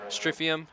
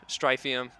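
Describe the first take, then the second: First: Stryfium with a short i as in strip; short i name. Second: Stryfium with a long i as in stripe; long i name. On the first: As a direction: say Stryfium as strif-ee-um. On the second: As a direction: say Stryfium as strife-ee-um. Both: Shown as a demonstration.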